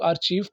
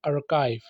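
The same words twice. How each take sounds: First: आर्चीव said "ar-cheev", CH in place of K; mispronounced with CH. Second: आर्काइव said "ar-kive", with a hard K; आर्काइव with K instead of CH; K sound in आर्काइव. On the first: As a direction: misread archive as आर्चीव. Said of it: "जो कि गलत है". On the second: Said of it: "के की आवाज़ निकालनी है". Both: Shown as a demonstration.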